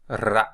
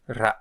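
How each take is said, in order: First: The R is trilled long with many rolls. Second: The R is trilled short with few rolls.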